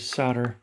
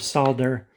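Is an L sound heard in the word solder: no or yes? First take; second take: no; yes. First: It is said without an L sound. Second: It is said with an L sound.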